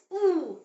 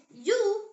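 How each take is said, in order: First: "U" said as a long "oo", as in moon; German letter name. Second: Said in the usual way. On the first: Shown as a demonstration. Teacher shows how German U is pronounced, long "oo". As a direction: give "U" the pure German "oo" sound. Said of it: "Like the U in the English word moon". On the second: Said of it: "as U".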